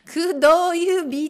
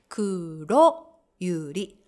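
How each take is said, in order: First: The r sounds come out like d and b. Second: The r sounds are crisp tongue taps. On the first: The speaker calls it wrong. "くどゆびとかならないでね" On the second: The speaker calls it right. "ロってビシッて叩いてください"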